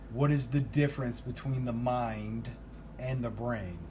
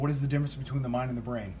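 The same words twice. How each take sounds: First: The question is spoken at a slower pace. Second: The question is spoken at a fast pace.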